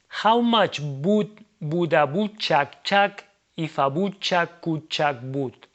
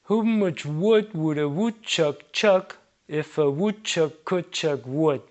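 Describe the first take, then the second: First: English sounds are attempted with Spanish vowel habits. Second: Reduced vowels give a near-English pronunciation. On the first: "respect the English pronunciation rules, but we kept a Spanish pronunciation logic" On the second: "This already sounds a lot more like correct"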